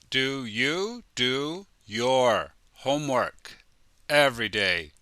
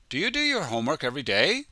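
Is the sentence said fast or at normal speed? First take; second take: normal; fast. First: It is said at a normal, careful speed. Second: It is said quickly, with words run together.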